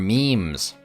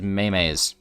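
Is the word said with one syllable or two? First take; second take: one; two. First: The word is said with one syllable. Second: The word is said with two syllables. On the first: The speaker calls it right. "They are memes" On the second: The speaker calls it wrong. "pronounced it Maymays"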